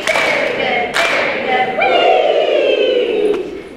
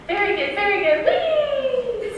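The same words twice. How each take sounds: First: Much higher, loud chant ending in a squealed wee; chanted, shriek the wee at the top of the voice; high chanted cheer. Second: Higher, louder cheer ending in a squealed wee; Henriette's cheer. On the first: Real, not acted. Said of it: "Now the wee". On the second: Retold or imitated. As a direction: cheer like a jolly hostess, wee flying high. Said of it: "she would say".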